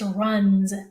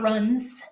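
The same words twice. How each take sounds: First: The final sound is a buzzing z. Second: The final sound is a hissing s. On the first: The speaker calls it right. "the S actually makes the Z sound in that word" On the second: The speaker calls it wrong. "It's not runs"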